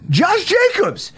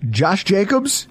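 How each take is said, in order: First: Very high-pitched, drawn-out exclamation; incredulous outburst. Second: "Josh Jacobs" raised as a question. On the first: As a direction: squeal the name in disbelief. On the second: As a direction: float "Josh Jacobs" upward, querying it. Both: Real, not acted. Repeats the name in mock disbelief.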